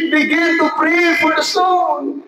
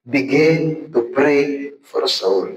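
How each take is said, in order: First: Preached shout. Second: Slow, deliberate sermon point; slow emphatic teaching. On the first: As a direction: proclaim it to the whole hall. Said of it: "Kaya, mga kapatid". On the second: Preacher slowly tells students how to start, plain and measured. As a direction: spell it out word by word, slowly. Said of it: "Ano muna natin gagawin?". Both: Shown as a demonstration.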